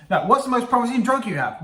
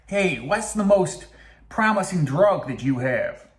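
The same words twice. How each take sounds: First: Higher-pitched, quicker acted question; lively retake in a raised voice; eager mock questioning. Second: Slow, drawn-out attempted Texan accent; hammed-up American accent, Texas style; mock Texas accent. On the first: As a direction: ask it high, without dragging it out. Restarts the acted question to scientists. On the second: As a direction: stretch it out like a fake Texan. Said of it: "He's Texas".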